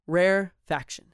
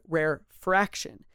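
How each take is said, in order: First: No R sound follows the F. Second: An extra R sound follows the F. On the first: The speaker calls it right. "It is rare, as in hard to find, and faction" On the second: The speaker calls it wrong. "It is not rare fraction. There is no R in there"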